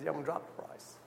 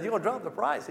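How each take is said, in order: First: Said in the usual way. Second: Incredulous question, much higher, rising at the end; surprised. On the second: Retold or imitated. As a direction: echo it back in disbelief. Incredulous echo of seller's offer.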